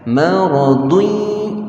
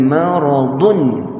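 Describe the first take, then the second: First: The n merges nasally into the following y. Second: The final n is sounded clearly. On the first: The speaker calls it right. "Masuk ya. Itu idgham kita panggil" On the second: The speaker calls it wrong. "Jangan bunyikan nun. Jangan maradun"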